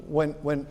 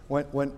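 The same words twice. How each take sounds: The two takes are said the same way.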